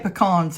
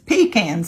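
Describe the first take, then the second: First: It is said the local way. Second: It is said the Deeper South way.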